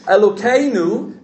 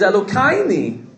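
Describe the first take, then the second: First: The word is said in a standard accent. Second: The word is said in a Hasidic accent.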